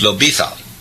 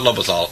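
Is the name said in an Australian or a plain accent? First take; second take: Australian; plain. First: The name is said in an Australian accent. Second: The name is said in a plain, mumbled way. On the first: The speaker calls it right. "you're an Aussie, the D has to be strong" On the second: The speaker calls it wrong. "it's not Lobethal"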